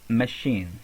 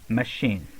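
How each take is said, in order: Both takes have the same delivery.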